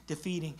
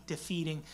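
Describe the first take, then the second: No difference in how they are said.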